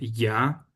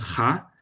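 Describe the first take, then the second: First: It starts with a soft y-like glide. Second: It starts with a harsh, throaty consonant. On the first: The speaker calls it right. "la J en alemán es un poco más suave" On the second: The speaker calls it wrong. "No decimos ja"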